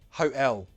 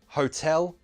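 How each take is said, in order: First: The T is replaced by a glottal stop. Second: The T is a clear, released T sound. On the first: "Now the glottal T" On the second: "First, true T"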